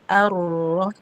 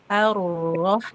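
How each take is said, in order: Both takes have the same delivery.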